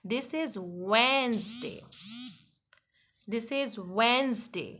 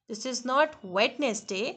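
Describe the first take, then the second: First: Slow "Wednesday" as WENZ-day, silent d; slow WENZ-day, no d sound; correct Wednesday. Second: "Wednesday" spelled out as WED-nes-day, slow; wrong Wednesday. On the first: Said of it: "ये सही नहीं है". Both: Shown as a demonstration.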